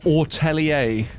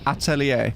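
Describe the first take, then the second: First: The word begins with an 'or' vowel. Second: The word begins with an open 'ah' vowel. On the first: The speaker calls it wrong. "and not ortelier, like how she says it" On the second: The speaker calls it right. "I swear it's like meant to be atelier"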